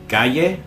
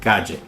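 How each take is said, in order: First: The double l sounds like an English y. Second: The double l sounds like an English j. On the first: "either the English Y" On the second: "or the English J"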